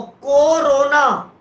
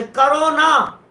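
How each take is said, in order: First: Stretched को, then रोना as its own word; split as को रोना. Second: Slow करो, then a separate stretched ना; split as करो ना. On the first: Teacher showing how a space changes meaning, split को रोना. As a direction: break corona slowly after को. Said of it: "क्यों रोना". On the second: Teacher showing the other word division, split करो ना. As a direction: break after करो and lengthen ना. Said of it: "यहां से तोड़ दिया तो अलग अर्थ". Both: Shown as a demonstration.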